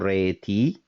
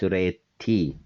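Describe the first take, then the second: First: The t is short and light, not held. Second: The t is strong and held, doubled. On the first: The speaker calls it wrong. "It is not re T" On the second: The speaker calls it right. "but it is re T"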